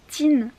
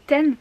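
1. La voyelle est relevée, proche de ee. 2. La voyelle est un e ouvert bref. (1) "ils disent teen" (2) "pour dire 10, c'est 10"

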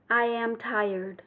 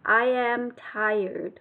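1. I am được nói thành hai từ đầy đủ. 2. I am được nói thành hai từ đầy đủ.

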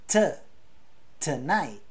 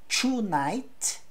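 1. A primeira vogal é reduzida a um schwa. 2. A primeira vogal é uma vogal plena. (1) "é tonight" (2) "Então não é tonight"

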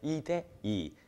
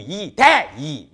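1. 가운데 단어 'to'는 약하게 읽습니다. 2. 가운데 단어 'to'는 강하게 읽습니다. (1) "가운데 게 조금 힘이 빠지죠" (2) "이런 말 없잖아요"

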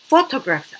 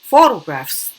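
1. T 소리는 완전히 발음돼요. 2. T 소리는 줄어들어요. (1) "T 살려도 되고" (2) "줄여도 돼요"

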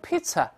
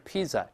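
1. 中间的辅音是 ts 音。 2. 中间的辅音不是 ts 音。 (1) "中间还是发ts" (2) "而不是pizza"

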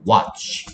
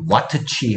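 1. t 소리가 ch 소리에 합쳐져요. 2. ch 앞에 t 소리가 따로 나요. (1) "그냥 watch" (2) "발음이 와트취 하려니까 힘들어서"

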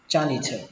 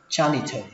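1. Âm phụ âm giữa nghe giống âm th bật hơi. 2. Âm phụ âm giữa nghe giống âm th bật hơi.

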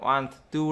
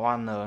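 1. Âm t của two được phát âm rõ ràng. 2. Âm t hòa vào âm n. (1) "không không đọc one two đâu" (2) "ồ, one nơ luôn"

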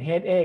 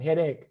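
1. คำนี้อ่านทีละตัวอักษรแบบไทย 2. คำนี้ออกเสียงและลงน้ำหนักแบบอังกฤษ (1) "จะไม่เป็น" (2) "เป็น"

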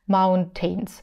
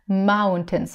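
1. Во втором слоге полный гласный 'tain'. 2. Во втором слоге редуцированный, слабый гласный. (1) "почему-то у них произносится звук tain. Это неправильно" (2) "Mountains мы произносим"

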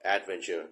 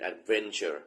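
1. การเน้นเสียงไม่ได้อยู่ที่พยางค์ที่สอง 2. การเน้นเสียงอยู่ที่พยางค์ที่สอง

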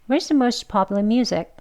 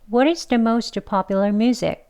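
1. 이 문장은 빠른 속도로 말해요. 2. 이 문장은 보통 속도로 말해요.

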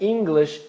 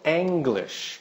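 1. A primeira vogal é um 'ee' curto. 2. A primeira vogal é como o 'a' em apple. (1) "é English" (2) "e não English, que é muito pronunciado, um erro muito comum"

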